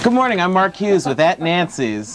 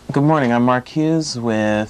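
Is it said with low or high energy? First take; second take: high; low. First: It is said with much more energy. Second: It is said with less energy.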